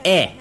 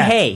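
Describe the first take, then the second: First: The word starts with no h sound. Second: The word starts with a clear h sound. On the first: The speaker calls it wrong. "You're saying eh" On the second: The speaker calls it right. "Fucking say hey"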